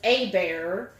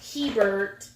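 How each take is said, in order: First: The name is said the Cajun Creole way. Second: The name is said the Canadian family way. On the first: This is how the local Creole or Cajun speakers say it. "the Creole is Abear, um, or Cajun is Abear" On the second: This is how the family says the name. "we pronounce it Hebert because they were from Canada"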